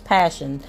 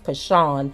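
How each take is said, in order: First: The name sounds like the word 'passion'. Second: The name ends in a stressed 'shawn' sound. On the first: The speaker calls it right. "the way her mother um, pronounced the name in the news conference was Passion" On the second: The speaker calls it wrong. "I think in my other video I said it was Pashawn"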